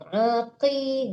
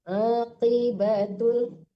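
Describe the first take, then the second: First: The k sound is light, made forward. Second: The k sound is heavy, made deep back. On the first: The speaker calls it wrong. "jangan ki ya. Kalau ki kaf kecil dibaca itu" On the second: The speaker calls it right. "kaf besar tebal"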